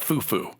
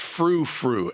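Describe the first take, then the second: First: It is said without an r after the f. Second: It is said with an r after the f. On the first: The speaker calls it wrong. "It's not foo-foo" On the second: The speaker calls it right. "It's frou-frou, F R O U"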